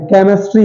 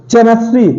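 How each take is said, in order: First: Said in the usual way. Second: केमिस्ट्री said as "che-mistry"; wrong pronunciation. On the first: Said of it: "एच silent है". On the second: Shown as a demonstration. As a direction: start केमिस्ट्री on ch, not k. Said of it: "कुछ लोग केमिस्ट्री बोलते हैं".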